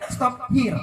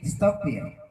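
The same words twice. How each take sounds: First: American style. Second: "stop here" run together, British accent; British style. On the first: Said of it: "American style agak kasar". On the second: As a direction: blend "stop here" into one word the British way. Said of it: "pronunciation-nya digabung". ("stop here" digabung, logat British) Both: Shown as a demonstration.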